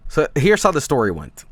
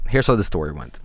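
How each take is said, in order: First: Said in the usual way. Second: Repeated much lower in pitch; low dramatic repeat. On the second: Shown as a demonstration. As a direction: drop low for a mock-ominous story opener.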